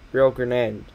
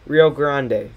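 First: GRANDE said as "gre-nan"; mispronounced GRANDE. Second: GRANDE said as "GRAHN-day"; Spanish-style GRANDE, "grahn-day"; corrected GRANDE. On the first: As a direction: add a weak vowel inside GRANDE, "gruh-NAN". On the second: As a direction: give GRANDE an open "ah" and final "ay". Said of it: "forget how to pronounce Grande". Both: Real, not acted.

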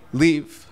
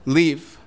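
No difference in how they are said.

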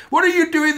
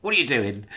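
First: High, loud shriek on what are you doing; hammed-up furious scream; screaming mad. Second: Said in the usual way. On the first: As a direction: scream the question at them. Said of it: "screaming mad". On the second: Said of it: "aunt-like sigh".

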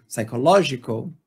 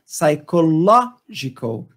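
First: Said in the usual way. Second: "psychological" drawn out slowly with the stress on "LO"; slow and deliberate "psychological", hitting "LO"; "psychological" stretched out so that "LO" stands out; slow stress demo. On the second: Shown as a demonstration. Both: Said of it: "Então tá aqui no ló".

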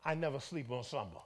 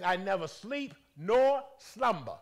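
First: Said in the usual way. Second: Loud, slow, booming declaration; proclaiming voice of God. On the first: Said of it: "had the audacity to say what?". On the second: Retold or imitated. Preacher voicing God's promise to the church, loud and slow. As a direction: let every word land like a decree. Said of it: "He says".

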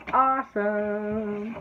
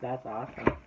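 First: "Awesome" stretched long, higher and louder; drawn-out cheer. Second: Said in the usual way. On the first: Real, not acted. Vlogger admiring shop decorations, "Awesome" drawn out high. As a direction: hold "Awesome" out in a slow, high singsong.

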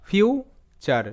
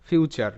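First: future broken into rising "fiu", pause, falling "char"; split syllables. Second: Said in the usual way. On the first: Shown as a demonstration. Teacher sounds out the word for learners, future split "fiu - char". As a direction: sound out future slowly in two separate parts.

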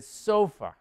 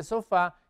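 First: Sofa stressed on the first syllable, SO-fa; English first-syllable stress. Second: Sofá with the stress on the final syllable, so-FÁ; Spanish final stress. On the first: (sofa en inglés, con acento en la primera sílaba) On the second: (sofá a la española, acento en la última sílaba) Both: Shown as a demonstration. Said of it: "El acento cambia un poquito".

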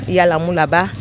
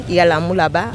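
No difference in how they are said.

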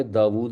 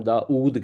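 First: "داود" as daa-WOOD; original pronunciation. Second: "داؤد" as daa-OOD; no w between the vowels of "داؤد"; Urdu pronunciation. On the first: Teacher shows what Urdu avoids, "داود" as daa-WOOD. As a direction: keep the w glide in "داود". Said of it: "Urdu میں داود نہیں کہتے". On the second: Teacher shows the Urdu change, "داؤد" as daa-OOD. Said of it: "ہم change کر دیتے ہیں". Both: Shown as a demonstration.

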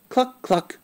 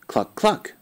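First: High clucking hen call; a high, hen-like cluck for a child. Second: Said in the usual way. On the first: Acted. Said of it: "It says". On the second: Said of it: "What animal says".

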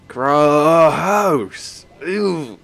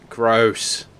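First: Louder, drawn-out grossed-out groan; milk the disgust on gross; hammed-up yuck; exaggerated disgust. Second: Said in the usual way.

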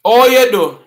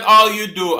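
First: Loud, high patois "Oh, you do"; Jamaican patois. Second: Said in the usual way. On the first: Shown as a demonstration. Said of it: "No, it's not "all you do". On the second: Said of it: "No, it's not".

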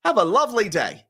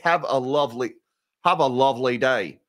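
First: Put-on second try at a British accent, higher pitched; hammed-up British accent, lifted in pitch; Tim Curry. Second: Attempted British accent that slips toward Australian; Tim Curry. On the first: Host retrying a failed actor impression, higher British accent. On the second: Host quoting an actor for a viewer's super chat, shaky British accent. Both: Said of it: "as the great Tim Curry would say".

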